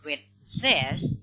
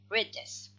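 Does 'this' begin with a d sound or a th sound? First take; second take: th; d. First: 'This' begins with a soft dental th sound. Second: 'This' begins with a d sound. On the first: "it's supposed to be read this" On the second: "they pronounce it read this"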